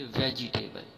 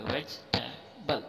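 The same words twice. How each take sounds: First: "वेजिटेबल" with a full "ji" in the middle; wrong pronunciation. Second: "वेजिटेबल" slow, as vech-teb'l without "ji"; correct pronunciation. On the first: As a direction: say "वेजिटेबल" as ve-ji-tay-bal. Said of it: "इस तरीके से गलत होगा". ("वेजिटेबल", पूरा "जि" बोलकर) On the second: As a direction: say "वेजिटेबल" slowly in split parts. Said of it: "यही इसका सही वर्ड है". ("वेजिटेबल" धीरे, "वेज-टेबल") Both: Shown as a demonstration.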